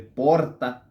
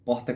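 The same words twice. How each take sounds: First: It has the strong interior-style R. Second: It has the carioca-style R.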